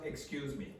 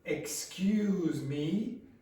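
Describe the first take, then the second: First: It sounds neutral and polite. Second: It sounds indignant and offended. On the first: A polite request for attention. The speaker calls it wrong. "It's not excuse me" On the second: The speaker feels accused and is offended. The speaker calls it right. "It's excuse me. ... Now it's not positive"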